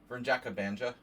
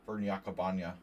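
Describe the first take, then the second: First: It is said with an American English accent. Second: It is said with a Serbian-style accent.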